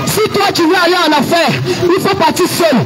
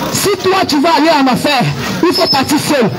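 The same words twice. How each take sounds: The two takes are said the same way.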